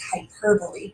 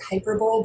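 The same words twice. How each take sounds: First: The word is pronounced in its usual spoken form. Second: The word is pronounced the way its spelling looks. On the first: The speaker calls it right. "It's hyperbole" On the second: The speaker calls it wrong. "It kind of looks like hyperbole, but that's not the way we pronounce it"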